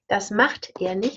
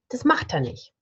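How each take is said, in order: First: Every sound is said in full. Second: Sounds are reduced, with a weak vowel.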